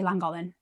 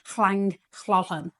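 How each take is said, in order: First: The double L's are plain L sounds. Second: The double L's are hissed, breathy sounds. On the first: This is how English speakers say it. "because we're English, we just say" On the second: This imitates the Welsh way of saying it. "there's two double L's in it, so it's like"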